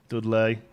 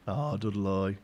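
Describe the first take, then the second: First: Said in the usual way. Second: "Dudley" ending in a drawn-out Brummie -loy; Brummie accent. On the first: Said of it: "You have to say Dudley". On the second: Shown as a demonstration. Streamer showing viewers the local pronunciation, Brummie DUD-loy. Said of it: "extra syllables into Dudley".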